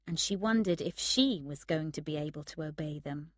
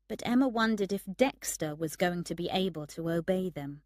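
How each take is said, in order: First: Second "she" picked out, the rest even; stress on SHE. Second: "Dexter" picked out, the rest even; stress on Dexter. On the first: Emma doubts herself too, stress on the second "she". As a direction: lean on the second "she" for contrast. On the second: Emma doubts her friend will obey, stress on "Dexter". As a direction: lean on "Dexter" as the one in doubt. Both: A narrator's reading.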